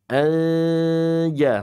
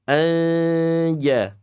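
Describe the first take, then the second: No difference in how they are said.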